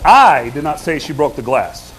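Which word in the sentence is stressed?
I. The stress falls on the word I. Someone else said it. "What am I trying to communicate there? I didn't say it"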